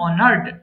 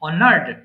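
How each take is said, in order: First: The ending is a bare "d" sound. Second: The ending is a bare "d" sound.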